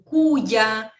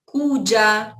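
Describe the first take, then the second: First: The middle consonant has a non-Rioplatense Spanish sound. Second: The middle consonant has a non-Rioplatense Spanish sound.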